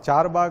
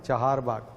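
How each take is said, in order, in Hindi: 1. पहला शब्द एक छोटा अक्षर है, char। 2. पहले शब्द में दो अक्षर हैं, cha-har। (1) "चार बाग नहीं है" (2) "C H A H A R"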